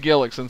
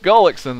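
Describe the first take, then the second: First: The first vowel sounds like the one in gill. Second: The first vowel sounds like the one in gull. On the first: The speaker calls it wrong. "I've been saying Gillickson, so we're we're close, sorta" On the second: The speaker calls it right. "Gullickson though"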